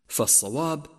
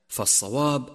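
The two takes are said the same way.

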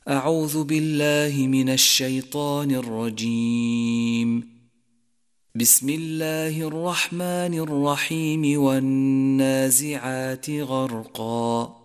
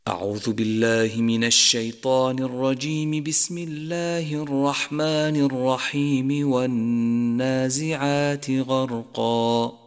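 First: A pause comes after the first phrase only. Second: All three phrases run together without pausing. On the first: "على الاستعاذة ووصل البسملة بأول السورة" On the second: "وصل الجميع"

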